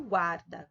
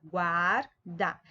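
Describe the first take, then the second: First: Said in the usual way. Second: "Guarda" divided GUAR, pause, DA; syllable by syllable. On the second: Shown as a demonstration. Teacher separating syllables for pupils, "Guarda" in two beats. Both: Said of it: "quando eu separo as sílabas".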